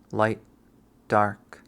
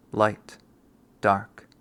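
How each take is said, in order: Both takes have the same delivery.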